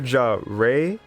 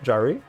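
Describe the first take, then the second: First: The name ends with a 'ray' sound. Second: The name ends with a 'ree' sound. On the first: "Like Ray the Squirrel from Sonic?" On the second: "Second one"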